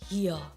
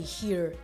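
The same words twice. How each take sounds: First: It is said in an Australian accent. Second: It is said in an American accent.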